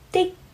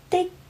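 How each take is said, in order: First: The word ends abruptly, with the airflow cut off. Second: The same.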